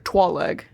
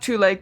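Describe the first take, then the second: First: The first syllable sounds like 'twah'. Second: The first syllable sounds like 'too'.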